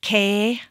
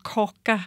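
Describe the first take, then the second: First: The vowel glides, with soft consonants. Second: The vowel is plain, with hard consonants. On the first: This is the normal Danish way. "skal sige kage" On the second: It is adapted so Swedish listeners understand. "jeg nedtoner mine diftonger"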